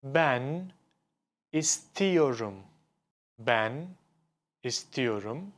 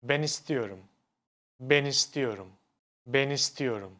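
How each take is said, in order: First: Ben and istiyorum split by a pause; words kept apart. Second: Ben istiyorum joined, the n flowing into istiyorum; linked words. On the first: Teacher showing the unlinked way, words kept apart. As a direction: say Ben, stop, then istiyorum. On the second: Teacher showing ulama, words linked smoothly. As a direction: glide ben straight into istiyorum. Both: Shown as a demonstration. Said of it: "I say it like".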